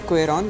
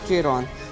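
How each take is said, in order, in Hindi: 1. इस नाम की शुरुआत 'kw' की आवाज़ से होती है। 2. इस नाम की शुरुआत 'ch' की आवाज़ से होती है। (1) "इसका वैसे तो प्रोनाउंस इसको करता है क्वेरॉन" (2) "मैं इसको चेरॉन बोलता हूँ इसकी स्पेलिंग को देख के"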